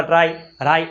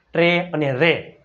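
First: ટ્રાય, રાય with an "eye" vowel; wrong "ai" reading. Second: ટ્રે અને રે, slow, with a long "ay" vowel; correct "ay" sound. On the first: Teacher warning pupils against this reading, wrong "ai" vowel. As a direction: misread tray and ray as ટ્રાય, રાય, rhyming with "eye". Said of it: "આવું ન વંચાય". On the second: Teacher reading out the rule's examples, long "ay" vowel. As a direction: say ટ્રે and રે slowly, both ending in "ay". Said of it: "એનો ઉચ્ચાર શું થાય". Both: Shown as a demonstration.

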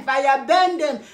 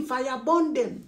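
First: "burn" said as "ben", with an e; corrected pronunciation of BURN. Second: "burn" said as "bon", with a rounded o; own pronunciation of BURN. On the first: Host rejecting viewers' correction, "burn" said as "ben". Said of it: "I don't want to say burn". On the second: Host defending her accent, "burn" said as "bon". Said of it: "That is the way I pronounce my burn". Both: Shown as a demonstration.

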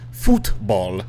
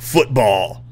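First: FOOTBALL split into two slow, separate beats; contrasted pronunciation. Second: FOOTBALL drawn out and punched, ending stretched; exaggerated pronunciation. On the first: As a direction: say FOOTBALL slowly, foot and ball apart. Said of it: "The American football. Not football, but football". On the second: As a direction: punch FOOTBALL slowly, stretching the last syllable. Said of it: "Not football, but football". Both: Shown as a demonstration.

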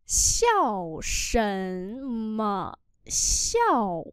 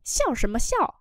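First: Xiao sần mà xiao read very slowly; slow demo. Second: Said in the usual way. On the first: Shown as a demonstration. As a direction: stretch every syllable. (đọc rất chậm Xiao sần mà xiao) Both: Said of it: "Cười gì mà cười?".

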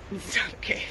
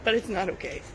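First: "It's not okay" breathed out, voice breaking, barely voiced; tearful whisper. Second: Holding back tears. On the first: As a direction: let the tears through on "It's not okay". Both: Real, not acted. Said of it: "I held it in till the cameras are gone".

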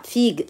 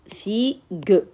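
First: Said in the usual way. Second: "figue" broken into two beats, fi-gue; split into syllables. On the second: Shown as a demonstration. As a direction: say "figue" slowly as fi, then gue. (« figue » découpé en syllabes, fi-gue) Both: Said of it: "On va les découper en syllabes".

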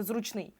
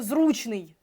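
First: Зручний stressed on the final ий; stress on last syllable. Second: Зручний stressed on the у; stress on first syllable. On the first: Teacher admitting a tempting mistake, зручний with final ий stressed. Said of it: "хоча хочу сказати". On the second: Teacher showing the correct accent, зручний with stressed у. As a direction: put the stress early in зручний, on у. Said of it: "теж наголос на «у»". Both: Shown as a demonstration.

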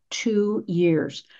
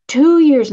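First: Said in the usual way. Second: TWO YEARS said higher and louder; stressed repeat. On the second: Shown as a demonstration. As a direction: punch TWO YEARS the second time.

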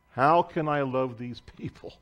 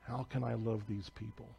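First: Said in the usual way. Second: Hushed prayer. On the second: Retold or imitated. Missionary pleading with God about her neighbors, hushed. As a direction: ask it under your breath, as if before God.

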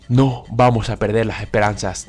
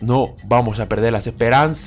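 First: Said in the usual way. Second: Last vowel of "esperanzas" held very long. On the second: Real, not acted. Gamer clinging to hope during the draw, long held ending. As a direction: stretch the end of "esperanzas" while waiting. Repeat stretched over the draw.

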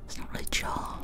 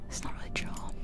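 The two takes are said the same way.

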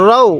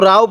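First: "রও" with rounded, heavy o; correct heavy Ra. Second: "রাও" with an open a vowel; wrong light Ra. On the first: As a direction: round the vowel in "রও", no open a. ("রও" মোটা করে, ও-ধ্বনিতে) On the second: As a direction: show the mistake "রাও", vowel unrounded. ("রাও" ভুল উচ্চারণ, খোলা আ-ধ্বনিতে) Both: Shown as a demonstration. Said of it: "কেউ রাও পড়ব না".

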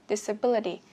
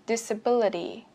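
The two takes are said the same way.

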